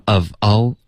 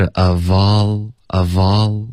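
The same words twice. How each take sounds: First: "of all" split into two separate words; unlinked words. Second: Slow "of all" joined as uh-vawl; linked pronunciation. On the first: Teacher showing what not to do, unlinked of all. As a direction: break between "of" and "all", no linking. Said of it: "不能发". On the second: Teacher modelling connected speech for a student, linked of all. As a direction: pull the v of "of" slowly onto "all". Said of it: "Of 跟all要连读". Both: Shown as a demonstration.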